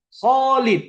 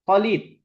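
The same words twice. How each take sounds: First: The name is called angrily, with a lengthened vowel. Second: The name is called in a relaxed, casual way.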